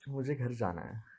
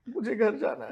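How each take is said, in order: First: It is said shyly. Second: It is said excitedly.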